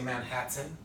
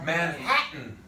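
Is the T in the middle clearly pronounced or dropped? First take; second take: pronounced; dropped. First: The middle T is clearly pronounced. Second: The middle T is dropped before the N. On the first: The speaker calls it wrong. "I don't say Manhattan" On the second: The speaker calls it right. "I say Manhattan. That N is taken over"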